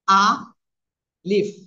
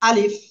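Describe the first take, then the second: First: The word is drawn out, with the opening vowel stretched. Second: The word is said quickly, with no stretched vowel. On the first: The speaker calls it wrong. "এভাবে না।" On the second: The speaker calls it right. "আমরা উচ্চারণ করব দ্রুত।"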